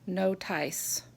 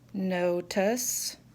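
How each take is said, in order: First: The second syllable has a long I sound. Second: The second syllable has a weak uh sound. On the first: The speaker calls it wrong. "Those are not words we know" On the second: The speaker calls it right. "the letters I in all of these words actually make the schwa sounds"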